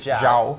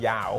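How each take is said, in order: First: The name begins with a 'zh' sound. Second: The name begins with a 'y' sound. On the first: The speaker calls it right. "it's that J like like Jose Mourinho because he's Portuguese" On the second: The speaker calls it wrong. "let's not call him Yao"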